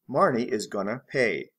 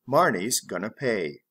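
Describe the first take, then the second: First: Is is said as a separate full word. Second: Is is contracted onto the name. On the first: "full be gonna" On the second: "Reduced or contracted form"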